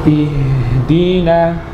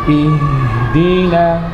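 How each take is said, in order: Both takes have the same delivery.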